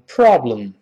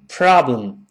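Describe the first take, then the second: First: The first vowel is rounded, with pursed lips. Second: The first vowel is an open 'ah' sound. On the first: "英式发音读成problem" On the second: "读成啊的声音problem"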